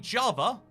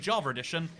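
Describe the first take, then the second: First: The two words are separate with no linking R. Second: An R sound links Java to edition. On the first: "If I say Java, and then I say edition, you can hear perfectly" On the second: "it's also coming out as Java edition"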